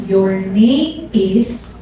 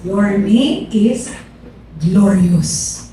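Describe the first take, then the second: First: Drawn out very slowly, rising at the end; slow rising prophetic drawl; slow prophetic call. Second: Slow and lower, landing firmly on glorious; slow falling prophetic close; slow prophecy, falling. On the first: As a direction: stretch each word like a prophecy being received. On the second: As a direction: deliver the name like a final revelation. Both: Retold or imitated. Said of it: "Tapos sabi niya".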